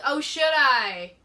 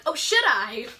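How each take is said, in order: First: Drawn-out, raised call; slow, loud call to someone at a distance; shouting it over. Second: Coy retold comeback with a rising lift; playful, flirty question; flirtatious. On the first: Shown as a demonstration. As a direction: call it across slowly, louder and higher. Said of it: "shouting it over". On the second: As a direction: toss it back teasingly, a little louder. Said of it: "You have a flirtatious personality".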